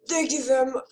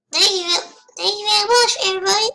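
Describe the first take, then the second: First: Half-remembered British accent attempt. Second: High, loud mock British accent; hammed-up, botched British thanks. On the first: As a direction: try a British accent, unsure of it. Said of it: "I forgot my British". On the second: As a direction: put on a big, bad British accent. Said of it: "I forgot the British accent".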